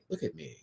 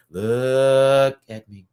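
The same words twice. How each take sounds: First: Soft, quick little "look at me"; hushed playful plea for attention; playful aside. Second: Very slow, stretched-out "LOOK at me"; mock-dramatic plea for attention, drawn way out; hammed-up demand. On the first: Pretend. Playful repeat for chat, softer take. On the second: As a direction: drag out LOOK, loud and long. Playful repeat, exaggerated drawn-out take.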